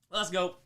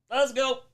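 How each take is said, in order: First: Said in the usual way. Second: Higher, louder hype call; excited cheer. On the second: Real, not acted. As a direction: pump up the crowd.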